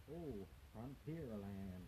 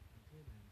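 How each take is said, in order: First: Slow, drawn-out fake American accent on Frontierland; bad American accent. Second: Said in the usual way.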